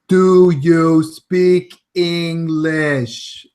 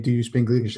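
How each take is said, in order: First: It is spoken slowly and deliberately. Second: It is spoken at a normal everyday pace.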